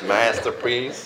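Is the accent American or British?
American. It is said in an American accent. "Whether you want to be American"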